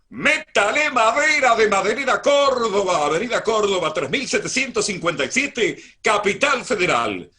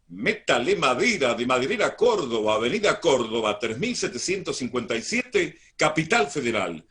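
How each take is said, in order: First: It is read with an even higher, louder voice. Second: It is read with a raised, projected voice.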